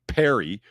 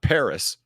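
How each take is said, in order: First: The word ends in a vowel, no s sound. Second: The word ends with a clear s sound. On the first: "If you want us to call your fucking city Perry" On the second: "not Paris, then don't spell it Paris"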